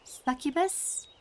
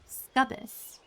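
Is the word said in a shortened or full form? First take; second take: full; shortened. First: The word is said in its full form. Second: The word is said in a shortened form. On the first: The speaker calls it right. "I think it's pronounced Succubus" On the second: The speaker calls it wrong. "I call them Scubbus"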